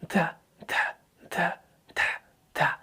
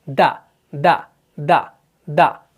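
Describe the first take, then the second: First: Breath keeps flowing out after each syllable. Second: Breath is cut off sharply after each syllable. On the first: The speaker calls it wrong. "ये ऐसा नहीं हो रहा ... तो ये air flow को पास नहीं करना है" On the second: The speaker calls it right. "बस एयर फ्लो कट हो रहा है, सांस जारी नहीं रहता है"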